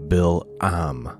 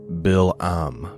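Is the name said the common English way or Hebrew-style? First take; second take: Hebrew; Hebrew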